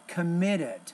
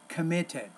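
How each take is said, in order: First: The middle T sounds like a soft D. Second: The middle T is a clear, crisp T. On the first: "the flap, when the T's in the middle of the word, is kind of like a D" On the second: "if you speak British English"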